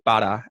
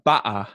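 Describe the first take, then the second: First: The middle t is a quick flap. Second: The middle t is a glottal stop. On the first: This is the Australian way. "we'll say butter, and so we use the T flap too" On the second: This is the stereotyped British way. "we don't use the glottal stop, so you won't hear butter"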